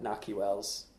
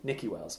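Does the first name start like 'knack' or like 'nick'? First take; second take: knack; nick. First: The first name begins with a 'nack' sound. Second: The first name begins with a 'nick' sound. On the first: This is the name as it used to be said. The speaker calls it wrong. "we spent all season pronouncing it Naki" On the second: This is the name as the player himself says it. The speaker calls it right. "He said it's Nicky"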